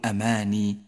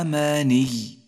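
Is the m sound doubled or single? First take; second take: single; doubled. First: The m sound is short and single. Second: The m sound is held long and doubled. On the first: The speaker calls it wrong. "ولا تقل أماني" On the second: The speaker calls it right. "ففي حالة الوقف تقول إلا أماني"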